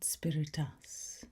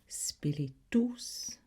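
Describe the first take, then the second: First: The last vowel is an A sound. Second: The last vowel is an O sound. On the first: The speaker calls it wrong. "not spiritus" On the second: The speaker calls it right. "The U sound is an O sound rather than an A sound"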